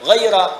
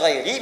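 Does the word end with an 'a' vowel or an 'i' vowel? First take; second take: a vowel; i vowel. First: The word ends with an 'a' vowel. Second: The word ends with an 'i' vowel. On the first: "dengan nasab ghaira" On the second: "bisa dibaca ghairi"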